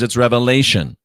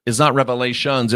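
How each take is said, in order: First: "revelation" said firmly, ending with no s; stress on singular. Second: "revelations" with its final "shuns" picked out; stress on plural ending. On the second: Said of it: "it matters because it's not revelation". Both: Shown as a demonstration.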